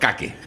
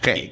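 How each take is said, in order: First: It is read with Spanish letter sounds, 'ka-ke'. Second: It is said with English sounds, like 'keik'. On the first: "leído en español es caque" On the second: "en inglés es cake"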